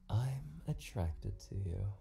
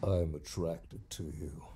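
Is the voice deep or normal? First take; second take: normal; deep. First: It is said in a normal, soft voice. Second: It is said in a deep, Batman-like voice.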